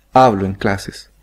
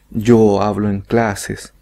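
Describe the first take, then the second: First: Said in the usual way. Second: "Yo hablo en clases" said slowly, the pronoun kept; wrong form. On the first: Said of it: "simplemente decimos". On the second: Shown as a demonstration. Teacher showing students what Spanish speakers don't say. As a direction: slowly show the unnatural form with "Yo". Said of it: "no decimos".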